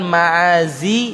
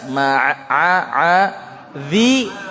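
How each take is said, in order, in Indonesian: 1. Konsonannya bunyi z biasa. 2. Konsonannya diucapkan dengan lidah di antara gigi. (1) "jangan ma'azi" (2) "Ainnya jelas ma'adhi"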